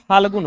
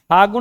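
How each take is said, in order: First: The word is said with an L sound. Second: The word is said without an L sound. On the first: The speaker calls it right. "फाल्गुन होता है" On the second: The speaker calls it wrong. "फागुन नहीं होता है"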